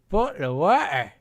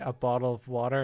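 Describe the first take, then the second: First: The phrase is said in a British accent. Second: The phrase is said in an American accent. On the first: "In U K, they say" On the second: "In America, they say"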